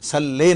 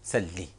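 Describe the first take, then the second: First: The final vowel sounds like 'ay'. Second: The final vowel sounds like 'ee'. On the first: The speaker calls it wrong. "सल्ले नहीं" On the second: The speaker calls it right. "बल्कि सल्ली, ये सही अदायगी है"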